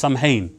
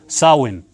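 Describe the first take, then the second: First: The middle is said with an 'm-h' sound. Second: The middle is said with a 'w' sound. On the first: The speaker calls it wrong. "many people pronounce this" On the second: The speaker calls it right. "but it's actually called"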